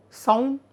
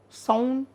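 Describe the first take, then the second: No difference in how they are said.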